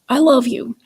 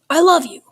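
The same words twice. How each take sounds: First: It is said in a frustrated, guilt-tripping tone. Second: It is said in an angry tone. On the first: "in a way that was frustrated, maybe in a way that kind of uh, was guilt inducing" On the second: "in a way that was angry"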